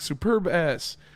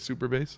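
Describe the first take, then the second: First: The b sound ends the first word. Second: The b sound starts the second word. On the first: It sounds like a rude phrase. The speaker calls it wrong. "Instead of super bass" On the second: It names the song. The speaker calls it right. "Instead of super bass"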